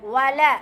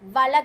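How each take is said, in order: First: The first sound is said with rounded lips. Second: The first sound is said without rounded lips. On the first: The speaker calls it right. "வாவ் வந்து வாயை குவிச்சு சொல்வது" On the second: The speaker calls it wrong. "வல கிடையாது, இப்படி சொல்லக்கூடாது"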